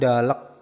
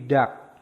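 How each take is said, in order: First: Both l and k are pronounced at the end. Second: Only a single k is pronounced at the end. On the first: The speaker calls it wrong. "Bukan dalek" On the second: The speaker calls it right. "tapi dak"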